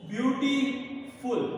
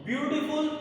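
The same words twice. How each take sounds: First: ब्यूटीफुल slowly, broken into ब्यूटी and फुल; split into syllables. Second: Said in the usual way. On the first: Shown as a demonstration. Teacher showing double syllables, ब्यूटीफुल said slowly in two parts. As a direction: pause between ब्यूटी and फुल, drawing each out. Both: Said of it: "double syllable आ रहे हैं".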